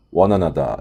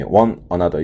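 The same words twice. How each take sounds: First: "one another" 워너나더로 이어서; 연음으로 "one another" 붙이기; linked one another. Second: "one another" 끊어서 따로따로; 단어 사이를 끊어 "one another"; choppy one another. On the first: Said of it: "one another 이렇게". (연음 "one another") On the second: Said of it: "one another 이렇게 가지 마시고요". (끊어 읽는 틀린 예) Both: Shown as a demonstration.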